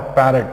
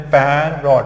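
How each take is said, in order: First: Said in the usual way. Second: "पैरॉट" as two stretched parts, "paair-rot"; broken into syllables. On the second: Shown as a demonstration. Teacher repeating the break, "पैरॉट" syllable by syllable. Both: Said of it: "कैसे break करना है".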